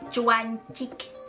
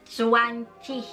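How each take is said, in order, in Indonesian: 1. Kata itu dimulai dengan bunyi ch. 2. Kata itu dimulai dengan bunyi z biasa. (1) "ataupun zwanzig, cuancik" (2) "bukan zwanzig"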